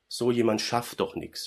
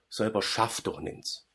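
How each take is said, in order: First: It is said in standard German. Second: It is said in a Swabian dialect.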